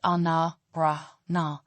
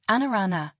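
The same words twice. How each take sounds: First: "ana, ra, na" in separated, open syllables; syllable-by-syllable pronunciation. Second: Said in the usual way. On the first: Shown as a demonstration. Teacher breaking down the Malagasy word for name, syllable by syllable. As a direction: split "ana, ra, na" with pauses, every a open. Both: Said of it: "is pronounced".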